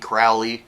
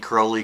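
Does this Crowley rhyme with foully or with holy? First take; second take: foully; holy. First: The first vowel sounds like in foully. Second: The first vowel sounds like in holy. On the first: It is how his detractors say the name. The speaker calls it wrong. "those who wish to treat me foully call me" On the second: It is how those who know him say the name. The speaker calls it right. "Those who know me call me Crowley because I'm holy"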